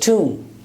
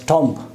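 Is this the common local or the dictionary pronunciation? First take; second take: dictionary; common local. First: The word is said with the dictionary vowel. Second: The word is said with the common local vowel. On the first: The speaker calls it right. "the accurate pronunciation is" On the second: The speaker calls it wrong. "we normally pronounce as tomb"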